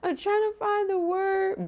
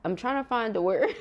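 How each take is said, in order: First: High, slow laughing repeat; laugh-cry it out, stretched; giggly high whine of frustration. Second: Said in the usual way. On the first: Real, not acted.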